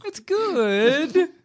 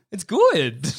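First: Very high, rising, doubtful 'good'; squeaked-up unconvincing compliment; bad good. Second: Higher, drawn-out 'good'; demonstrating insincere praise; bad good. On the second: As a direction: stretch 'good' into an unconvincing compliment. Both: Shown as a demonstration. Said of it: "give them the bad good".

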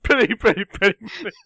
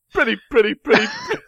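First: Imitating him. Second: High squeaky mimicking voice; imitation of his voice. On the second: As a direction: copy his silly singsong, pitched way up. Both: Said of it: "You sound like me, too".

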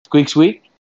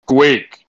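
First: Loud, high squirrel squeaks with a rising end; squeaked question. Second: One loud squirrel squeak, falling; a firm squeaked yes, tune dropping; squeaked answer. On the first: Interpreter making sure with the squirrel, squeaked question. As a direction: ask to confirm in squirrel squeaks. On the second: Squirrel confirms to its interpreter, squeaked answer. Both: Pretend.

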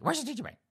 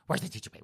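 First: High-pitched, excited clamor; impatient teachers. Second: Low, muttered nagging demand; impatient teachers. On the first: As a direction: whine it higher, eager for the treat. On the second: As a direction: grumble it like a restless audience. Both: Acted. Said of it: "all you high school teachers going".

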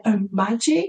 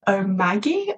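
First: Omagi with a soft g, like the j in "jam"; soft-g pronunciation. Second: Omagi with a hard g, as in "go"; hard-g pronunciation. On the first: Unsure host offers listeners another try, Omagi with soft g. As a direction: say Omagi as "oh-MAJ-ee", trying it out. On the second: Unsure host tries a brand name for listeners, Omagi with hard g. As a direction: say Omagi as "oh-MAG-ee", trying it out. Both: Shown as a demonstration. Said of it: "I know I'm pronouncing it wrong".

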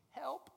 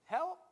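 First: High rising "help."; plea for help. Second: High, loud rising "Help."; loud plea. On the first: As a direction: lift "help." up high like a small cry. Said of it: "is go". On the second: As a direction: call "Help." out louder and higher. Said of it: "And then just keep". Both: Shown as a demonstration.

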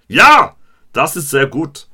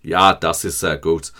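First: "Ja!" shouted high and loud, then "Das ist sehr gut" in a mock German voice; hammed-up classroom German; shouted school German. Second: Plain recited German. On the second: Retold or imitated. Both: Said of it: "my G C S E German coming out".

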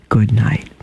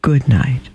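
First: Whisper. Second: Said in the usual way. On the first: Acted. The star whispering good night to Mimosa, hushed. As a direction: breathe it like a secret blessing.

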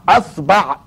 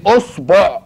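First: "أصبع" with a on both vowels, asbaʕ; pronunciation variant. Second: "أصبع" with rounded vowels, osboʕ; pronunciation variant. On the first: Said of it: "يا تفتحها يا تكسرها يا تضمها". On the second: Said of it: "قول إيه؟". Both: Shown as a demonstration.

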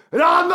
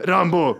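First: High, loud hammed-up scream for a lost dog. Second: First, moderate call for the dog. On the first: Owner finds her dog is gone, imitated panicked scream. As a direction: scream the name in mock panic. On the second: Retold or imitated. Dog owner looking for her dog on the train, calling out. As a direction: call the dog's name, not yet alarmed. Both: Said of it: "Och skriker".

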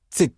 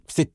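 Both takes have the same delivery.

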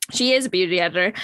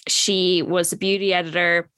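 First: Quick correction with "is" stressed and rising. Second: Said in the usual way. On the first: Shown as a demonstration. Correcting herself that her friend still is an editor, stressing is. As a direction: lean on "is" to fix the tense.

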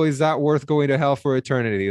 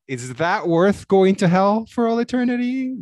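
First: "is that worth going to hell for eternity?" read as a falling statement. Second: "is that worth going to hell for all eternity?" read with a questioning lift. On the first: Rereading the comment's line correctly, as a statement. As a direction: state it flatly, no question. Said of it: "I misread that". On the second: Misreading a comment's line as a question to cohost. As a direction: ask it, lifting toward "eternity". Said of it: "I said that as a question". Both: Shown as a demonstration.

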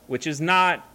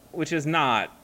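No difference in how they are said.

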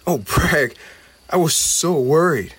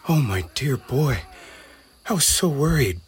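First: Higher and louder, tearful relief; relieved cry. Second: Mother calling out to her lost son. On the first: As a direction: pour out the worry in relief. Goblin greets rescued friend. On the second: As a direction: call to him across the crowd in relief. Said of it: "Blinn's mother called". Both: Acted.

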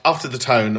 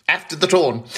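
First: Said in the usual way. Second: Put-on Irish accent. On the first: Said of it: "or as we like to say in Irish". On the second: Host repeats show title, jokey Irish accent. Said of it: "as we like to say in Irish".

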